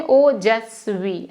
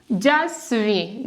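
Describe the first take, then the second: First: ओजस्वी said whole, slowly and clearly; correct way demo. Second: जस्वी said alone, slowly, with a questioning rise; wrong way demo. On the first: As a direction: give the right version calmly. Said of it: "ऐसे बोलते हैं". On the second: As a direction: show the mistake slowly, as if asking. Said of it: "जस्वी नहीं बोलते हैं". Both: Shown as a demonstration.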